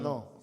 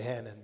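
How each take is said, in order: First: The name is said the French way. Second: The name is said the English way. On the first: The speaker calls it right. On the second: The speaker calls it wrong.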